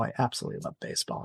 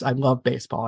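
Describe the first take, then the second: First: "I absolutely love baseball" whispered fast and breathy; hushed whisper. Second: Said in the usual way. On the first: Real, not acted. Guest confiding her passion to the host in a whisper. Repeats the line, then drops it.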